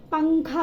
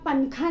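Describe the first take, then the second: First: "पंखा" with a nasal ng before kha; poprawna wymowa. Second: "पंखा" with a distinct tongue-tip n, "pan-kha"; błędna wymowa. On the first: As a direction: blend the n of "पंखा" into the nose. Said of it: "पंखा बोलते हैं हम". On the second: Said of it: "नहीं बोलते हैं". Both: Shown as a demonstration.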